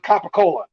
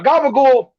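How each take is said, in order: First: It starts with k and ends in -ola. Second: It starts with g and ends in -ool. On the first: This is what people outside North Jersey say. The speaker calls it wrong. "That's not the right way you say it" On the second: This is the North Jersey way to say it. The speaker calls it right. "A gabagool is a lunch meat"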